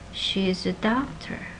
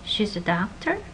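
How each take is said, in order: First: The pitch falls at the end. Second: The pitch rises at the end. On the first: It is a statement. "if it's a statement, it has a falling contour" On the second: It is a question. "you can tell if it's a question by this rising intonation"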